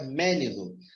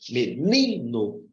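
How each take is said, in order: First: The stress is on the first syllable. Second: The stress is on the middle syllable. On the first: The speaker calls it wrong. "Se eu colocar aqui no, no mé e pronunciar com mais força" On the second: The speaker calls it right. "só sobra o ni. E se eu colocar aqui o acento aqui e pronunciar com mais ênfase"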